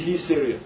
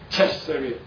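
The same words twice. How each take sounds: First: It is pronounced the Greek way. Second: It is pronounced the American way. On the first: "And in the Greek is the Caesarea" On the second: "In the American, they call it Caesarea"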